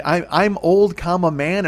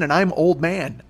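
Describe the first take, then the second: First: Put-on "I'm old, comma, man" with a clear break after "old"; spoken comma. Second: Put-on "and I'm old man" run together slowly as one phrase; no comma. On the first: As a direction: pause where the comma goes, then "man". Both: Shown as a demonstration. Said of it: "the punctuation does not make a difference there".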